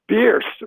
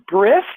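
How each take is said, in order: First: The R comes right after the vowel. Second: The R comes right before the vowel. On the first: The speaker calls it right. "you've swapped the R and the I. It's Bierce" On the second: The speaker calls it wrong. "am I pronouncing it right?"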